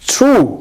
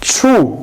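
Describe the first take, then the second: First: The tr sounds close to a ch sound. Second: The tr sounds close to a ch sound.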